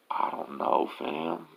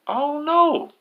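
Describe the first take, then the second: First: Soft, halting and unsure; quiet acted shrug of a reply; hesitant retold reply. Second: Very high hollered answer; high-pitched distant-reply holler; imitated call back. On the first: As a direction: act out a hushed, reluctant answer. First inmate hesitates when asked. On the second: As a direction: act out yelling a reply up from below. Joe calls back from below.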